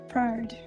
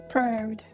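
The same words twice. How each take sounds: The two takes are said the same way.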